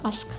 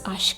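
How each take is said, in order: First: The word is said with a plain 's' sound. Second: The word is said with an 'sh' sound. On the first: The speaker calls it wrong. "It's not Ask" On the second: The speaker calls it right. "It's Ashk"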